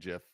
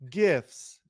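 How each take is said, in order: First: It begins with a soft J sound. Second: It begins with a hard G sound. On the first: The speaker calls it wrong. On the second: The speaker calls it right.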